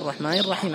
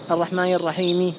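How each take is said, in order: First: The last word ends on a bare consonant. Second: The last word ends with a pronounced vowel. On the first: The speaker calls it right. "بل تقف هكذا الرحمن الرحيم على السكون" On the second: The speaker calls it wrong. "ما تقول"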